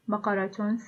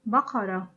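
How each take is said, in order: First: The word ends with a T and vowel. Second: The word ends with a soft H sound. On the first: The word is joined to a following word. "we pronounce the ta al-marbuta as t" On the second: The word stands alone or ends the phrase. "we pronounce their ta al-marbuta as ha"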